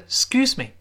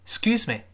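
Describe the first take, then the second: First: The first syllable is almost dropped. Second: The first syllable is almost dropped.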